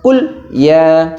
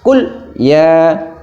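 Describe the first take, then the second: No difference in how they are said.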